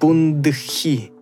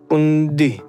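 First: The d is followed by an h sound. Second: A plain d with no h sound. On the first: "обратят внимание на вот этот звук «дх»" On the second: "яванцы произносят просто звук «д» без «х»"

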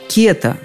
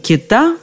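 First: The stress is on the first syllable. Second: The stress is on the last syllable. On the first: This is the older name of the fish. "Именно так, кета, скорее всего, эту рыбу раньше и называли" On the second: This is the more recent variant of the name. "вариант русского слова с наконечным ударением"

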